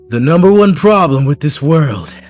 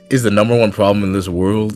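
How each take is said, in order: First: It is read in a Lelouch impression. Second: It is read in his normal voice.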